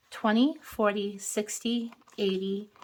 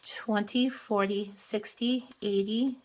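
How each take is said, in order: Both takes have the same delivery.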